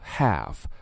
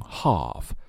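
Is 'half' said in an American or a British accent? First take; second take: American; British. First: It is said in an American accent. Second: It is said in a British accent. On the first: "美式发音中读作half" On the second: "英式发音会读成half"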